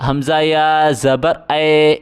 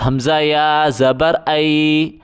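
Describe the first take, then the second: First: اے read as a flat e; wrong reading. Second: ائی read as a full ai glide; correct reading. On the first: Teacher showing the mistake to avoid, flat e. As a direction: say اے as a plain e, the wrong way. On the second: Teacher showing pupils the right reading, clear ai glide. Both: Shown as a demonstration. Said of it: "اس طرح نہیں پڑھا جائے گا".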